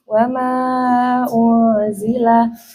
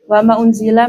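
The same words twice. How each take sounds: First: The vowel of 'ma' is held long. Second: The vowel of 'ma' is held short. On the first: "mat yang panjangnya dua alif"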